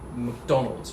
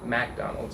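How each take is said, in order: First: The first vowel is a weak schwa sound. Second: The first vowel is a full vowel sound. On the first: "the first syllable, the the the uh sound is what we call a schwa" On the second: "when I hear Americans say it, I usually hear a, a Mac"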